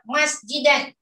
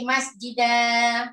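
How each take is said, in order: First: The word ends with an n sound. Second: The word ends on a vowel without n.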